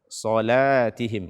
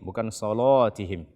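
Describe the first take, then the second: First: The l after the s is said light. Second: The l after the s is said heavy. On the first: The speaker calls it right. "Akan tetapi baca solatihim" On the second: The speaker calls it wrong.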